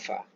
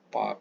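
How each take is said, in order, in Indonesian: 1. Diawali dengan bunyi f. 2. Diawali dengan bunyi p. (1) "Huruf fa seumpama huruf F" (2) "Jadi jangan sebut pakai P"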